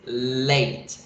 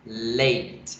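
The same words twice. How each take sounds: First: The word is said with one syllable. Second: The word is said with one syllable.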